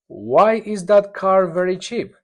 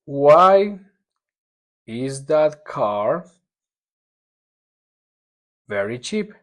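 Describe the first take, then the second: First: Said in the usual way. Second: Very slow, broken up word by word; word by word reading. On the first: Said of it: "whole sentence model". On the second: Shown as a demonstration. Teacher dictating the question word by word, very slowly. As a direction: pause between each chunk. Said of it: "word by word model".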